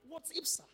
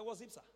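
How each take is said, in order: First: Higher, a touch of irritated officer; mock angry. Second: Said in the usual way. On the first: Officer irritated by the applicant, mild mock anger. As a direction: snap it like an annoyed officer. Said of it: "He just got angry". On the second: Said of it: "As if that just infuriated".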